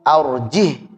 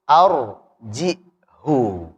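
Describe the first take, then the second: First: The word ends on a bare consonant, no vowel. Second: The word ends with a short 'u' vowel. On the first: "Kalau kita arjih hanya disukunkan" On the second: "Nanti riwayat lain lagi arjihu"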